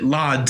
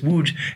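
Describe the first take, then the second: First: It is said with English sounds, like 'lodz'. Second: It is said with Polish sounds, like 'woodge'. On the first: The speaker calls it wrong. "I pronounce it Lodz or something like that. It's not even close" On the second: The speaker calls it right. "So in Polish, it's Łódź"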